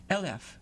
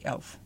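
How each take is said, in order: First: "elf" stretched into two syllables, like el-lef; "elf" as a two-syllable southern drawl; southern Dutch elf. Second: "elf." as one short clipped syllable; "elf." said clipped and efficient, one syllable; northern Dutch elf. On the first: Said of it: "with two syllables". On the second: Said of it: "One syllable. Clipped". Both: Shown as a demonstration.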